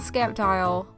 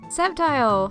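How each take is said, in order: First: The C is pronounced. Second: The C is silent. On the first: The speaker calls it wrong. "so it's not Sceptile" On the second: The speaker calls it right. "this thing actually has a silent C"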